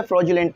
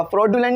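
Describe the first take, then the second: First: "फ्रॉडुलेंट" with a j sound, "froju-lent"; corrected pronunciation. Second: "फ्रॉडुलेंट" with a hard d-y, "frod-yulent"; mispronunciation demo. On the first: Teacher showing how to read it, "फ्रॉडुलेंट" as "fro-julent". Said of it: "तो फ्रॉडुलेंट पढ़ेंगे". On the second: Teacher showing how not to read it, "फ्रॉडुलेंट" as "frod-yulent". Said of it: "फ्रॉडुलेंट नहीं पढ़ेंगे". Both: Shown as a demonstration.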